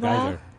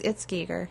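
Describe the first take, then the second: First: The first vowel sounds like 'eye'. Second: The first vowel sounds like 'ee'. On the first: The speaker calls it wrong. "It's a common mistake" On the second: The speaker calls it right. "It's Giger"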